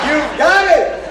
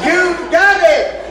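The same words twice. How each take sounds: First: High, loud joyful cheer; excited. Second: Even higher, drawn-out cheer; elated. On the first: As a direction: cheer the student on. Teacher cheering the student. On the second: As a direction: stretch the cheer slowly. Cheer repeated, slower. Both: Acted.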